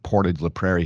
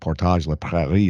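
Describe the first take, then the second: First: The name is pronounced the English way. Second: The name is pronounced the French way. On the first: This is how most locals say it. "most people pronounce it Portage la Prairie here, kind of anglicized it" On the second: This is the original, proper form. "is probably how it should be pronounced"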